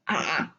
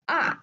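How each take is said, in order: First: The pitch dips down and then rises. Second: The pitch drops sharply from high. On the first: "Third one, the falling and rising tone" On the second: "fourth one, the falling tone"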